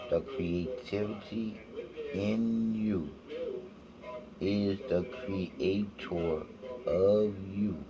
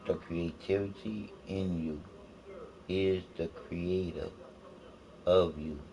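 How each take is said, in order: First: It is said slowly. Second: It is said at a normal pace.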